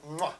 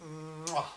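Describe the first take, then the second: First: Mwah, a quick kiss with a rising end; a short smacked Mwah like an Italian chef; Italian chef's kiss sound. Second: Mwah, a low soft fumbled kiss; botched Italian kiss sound. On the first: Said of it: "I'm not Italian, don't know why I tried". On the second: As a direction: mwah muttered low, half-swallowed. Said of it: "No, that was wrong". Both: Shown as a demonstration.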